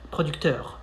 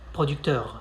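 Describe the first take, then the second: First: The R is a brief throaty French R. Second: The R is a brief throaty French R.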